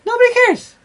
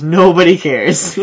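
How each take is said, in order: First: Much higher, cartoonish squeak; squeaky mock voice. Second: Slow, flat dismissive drawl; deadpan. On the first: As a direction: pitch it way up, mocking. Repeating the punchline, mocking. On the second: Retold or imitated. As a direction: say it like nobody cares at all. Quoting friend's deadpan dismissal.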